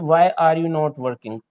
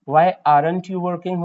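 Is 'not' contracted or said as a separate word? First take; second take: separate; contracted. First: Not is said as a separate full word. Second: Not is joined to are as aren't.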